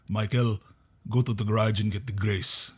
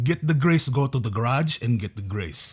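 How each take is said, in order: First: Lightly imitated Filipino accent, even and unhurried; dad's Filipino accent. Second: Mad Filipino dad. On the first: Son imitating dad asking for help in the garage, Filipino accent. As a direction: give a mild Filipino-accented dad's order. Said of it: "That's what his accent is". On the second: Retold or imitated. Son imitating dad getting all mad in the garage, mock-angry. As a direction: imitate an exasperated Filipino dad repeating his order. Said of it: "he would get all mad".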